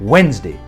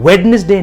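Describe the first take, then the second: First: The middle d is left silent. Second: The middle d is pronounced aloud. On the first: The speaker calls it right. "यहां पे डी जो है वो silent है" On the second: The speaker calls it wrong. "वेडनेसडे नहीं"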